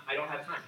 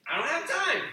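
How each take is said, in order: First: Said in the usual way. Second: I don't have time, pitched high and pressed; mock the excuse, high and exasperated; whiny mock excuse. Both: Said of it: "I hear it all the time".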